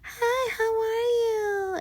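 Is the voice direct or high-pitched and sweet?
high-pitched. It is said in a high, soft, sweet voice.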